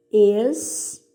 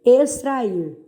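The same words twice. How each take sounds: First: "Extrair" split into ex, tra, ir with long gaps; separando sílabas. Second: Said in the usual way. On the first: Shown as a demonstration. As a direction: dictate "Extrair" in drawn-out syllables. ("Extrair" sílaba por sílaba, bem separado) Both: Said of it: "separe as sílabas dessas palavras".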